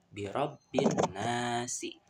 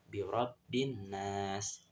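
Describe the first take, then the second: First: The phrase ends with an added final vowel. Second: The phrase ends on a silent final consonant. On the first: The speaker calls it wrong. "bukan dibaca birabbin nasi" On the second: The speaker calls it right. "dibaca sukun"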